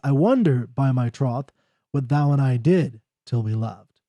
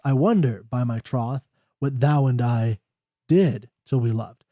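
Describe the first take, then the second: First: The thought runs on without stopping at line ends. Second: It stops at the end of each verse line.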